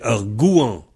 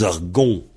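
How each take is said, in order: First: "gouan" with OU gliding into AN; forme courante. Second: "gon" in one syllable with a nasal O; variante de l'Ouest. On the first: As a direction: say "gouan" as gou-an, not gon. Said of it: "Alors, non, c'est". (« gouan » avec OU puis AN) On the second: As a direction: make "gon" rhyme with French "bon". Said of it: "ils disent". (« gon » à la manière de l'Ouest) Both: Shown as a demonstration.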